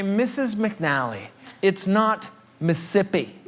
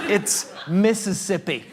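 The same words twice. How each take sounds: First: Mississippi dit vite, en escamotant une syllabe; "Mississippi" rushed, a syllable swallowed; mispronounced Mississippi. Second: "Mississippi" slowly with every syllable; correct Mississippi. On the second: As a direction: spell out "Mississippi" in full, slowly. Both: Retold or imitated. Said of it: "I would say".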